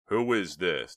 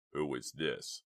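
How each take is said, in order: First: Loud, insistent question; demanding. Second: Lightly voiced menacing man; gruff growl. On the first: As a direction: demand an answer, loudly. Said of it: "demanded Chuck". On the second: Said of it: "the voice growled". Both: A narrator's reading.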